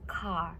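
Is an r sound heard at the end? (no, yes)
no. The word ends without any r sound. "in British English, people pronounce car as car without R"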